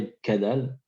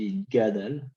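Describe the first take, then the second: First: The consonant after 'yit' is a k sound. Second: The consonant after 'yit' is a g sound. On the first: The speaker calls it wrong. "On ne dit pas Idkadal avec le kouf" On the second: The speaker calls it right. "on dit Idgadal avec le Gimel"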